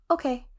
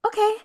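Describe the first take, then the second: First: Put-on brief Russian-accented okay, higher in pitch; Russian-accented reply, pitched up; thick Russian accent. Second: High, loud, eager okay in a Russian character's voice; bright burst of eagerness, pitched way up; more enthusiastic. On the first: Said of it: "in a really thick Russian accent". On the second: Retold or imitated. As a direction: perk right up with enthusiasm. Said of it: "with more enthusiasm".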